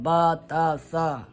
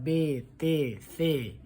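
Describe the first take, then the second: First: Each letter name ends in an a vowel. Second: Each letter name ends in an e vowel. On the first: This is the Arabic way of naming the letters. "अरबी में होता है बा ता सा" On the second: This is the Persian way of naming the letters. "फारसी में होता है बे ते से"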